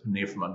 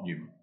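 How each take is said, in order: First: P and N are both sounded, with a V. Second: It is said without a V sound in the middle. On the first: The speaker calls it right. "If you're talking to a Greek, you've got to pronounce it pneuma" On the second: The speaker calls it wrong. "not pneuma"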